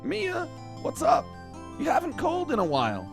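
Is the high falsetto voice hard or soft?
hard. It is a hard, strained high falsetto. "I've gone like the really hard falsetto"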